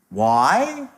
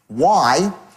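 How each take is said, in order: First: It is said with questioning intonation. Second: It is said with flat statement intonation. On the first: It asks for an answer. "one was a question" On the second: It is asserted rather than asked. "one was a declarative"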